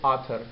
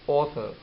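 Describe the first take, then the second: First: The first vowel is an unrounded American sound. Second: The first vowel is a rounded British sound.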